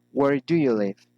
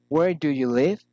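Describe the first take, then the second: First: "live" falling at the end; falling intonation. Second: "live" swooping up at the end; rising intonation. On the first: Teacher models a special question, falling intonation on "live". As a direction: let the question drop on "live". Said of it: "special questions following into intonation". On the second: Teacher shows polite interest, rising intonation on "live". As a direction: lift "live" sharply, politely asking. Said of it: "raising in-, intonation". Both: Shown as a demonstration.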